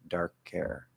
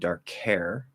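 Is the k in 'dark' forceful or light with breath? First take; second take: light with breath; forceful. First: The k is weak with slight breath after. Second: The k in 'dark' is strong and forceful. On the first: The speaker calls it right. "I'm doing a weak K with a little extra breath after it" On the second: The speaker calls it wrong. "That's a strong K"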